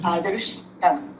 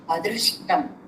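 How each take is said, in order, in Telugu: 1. r శబ్దాన్ని చాలా తేలికగా పలుకుతారు. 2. r శబ్దాన్ని చాలా తేలికగా పలుకుతారు.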